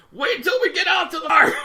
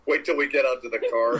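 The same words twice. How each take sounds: First: High mock-furious shout; imitated Hulking-out mom. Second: Mock mother holding herself back; restrained anger, imitated. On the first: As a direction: holler a threat like a raging mother. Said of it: "she did Hulk out". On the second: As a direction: act out a threat kept under control. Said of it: "as if she's restraining her, herself".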